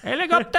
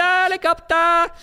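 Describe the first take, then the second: First: Said in the usual way. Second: High and drawn-out, mocking the word helicopter; mock squeaky high helicopter. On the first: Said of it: "helicopter (repeated)". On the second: Shown as a demonstration. Mocking the helicopter idea to his co-host, high and slow. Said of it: "Helicopter (repeated)".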